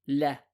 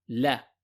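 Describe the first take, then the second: First: The L is pronounced light, with a thin sound. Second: The same.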